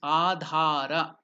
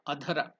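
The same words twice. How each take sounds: First: One vowel in the word is lengthened. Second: No vowel in the word is lengthened. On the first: The speaker calls it right. "it has to be elongated" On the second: The speaker calls it wrong. "it is not hrasva adhara"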